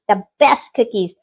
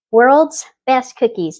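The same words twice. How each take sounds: First: Said in the usual way. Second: "World's best cookies" slow, stress on "World's"; emphatic, slow. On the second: Real, not acted. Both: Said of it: "That's what they literally say".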